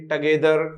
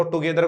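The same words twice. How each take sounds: First: "टगेदर" with a light t-uh start; weak schwa. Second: "टुगेदर" with a full oo sound; the mistaken too-gether form; wrong way. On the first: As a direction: reduce the first vowel in "टगेदर". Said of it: "टुगेदर को क्या बोलेंगे". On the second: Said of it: "कभी भी इसको टुगेदर नहीं बोलेंगे". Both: Shown as a demonstration.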